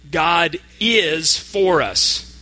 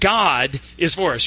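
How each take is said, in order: First: The stress is on the word is. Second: The stress is on the word God. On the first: It really is true that God is on our side. "This time, we're going to emphasize the word is" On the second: It is God, and no one else, who is on our side. "we're going to emphasize each word. The first time"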